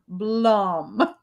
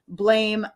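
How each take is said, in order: First: The name is said with an 'ah' vowel. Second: The name is said with an 'ay' vowel.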